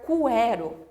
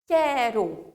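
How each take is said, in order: First: The U is sounded after the K sound. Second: The U is silent after the K sound. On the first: The speaker calls it wrong. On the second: The speaker calls it right.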